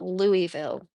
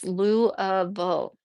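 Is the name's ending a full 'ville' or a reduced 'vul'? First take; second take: full ville; reduced vul. First: Said fully, ending in a clear 'ville'. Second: Said reduced, ending in a short 'vul'. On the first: The speaker calls it wrong. "It's not Louisville" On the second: The speaker calls it right. "it's Lou-uh-vule"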